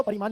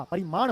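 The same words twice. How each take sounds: First: परिमाण ending in dental "n"; wrong pronunciation. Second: परिमाण ending in retroflex ṇ; correct pronunciation. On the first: Teacher rejects the misspelling, mispronounced. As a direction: end परिमाण wrongly on a plain n. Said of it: "परिमाण नहीं होता". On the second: Teacher gives students the right word, correctly pronounced. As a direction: curl the final ṇ of परिमाण. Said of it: "परिमाण होता है". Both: Shown as a demonstration.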